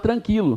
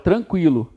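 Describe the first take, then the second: First: The U after the Q is silent. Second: The U after the Q is pronounced. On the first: The speaker calls it wrong. "você não fala tranquilo" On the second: The speaker calls it right. "Você fala tranquilo"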